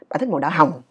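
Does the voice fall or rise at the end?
fall. The voice falls on the final word. The speaker calls it wrong. "Chứ không lẽ mình nói là"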